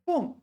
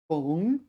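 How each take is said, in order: First: The pitch falls sharply through the syllable. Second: The pitch rises through the syllable. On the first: It means a crack or gap. "fourth tone" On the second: It means to sew. "Second tone"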